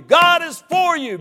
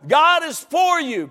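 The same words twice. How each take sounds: First: Louder and higher still; ringing repeat; repeated shout. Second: Slow, loud preacher shout; shouted promise; emphatic proclamation. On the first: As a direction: keep building. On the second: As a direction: drive it home slowly. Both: Acted. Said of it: "Look at me like you believe it".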